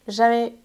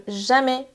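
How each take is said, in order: Both takes have the same delivery.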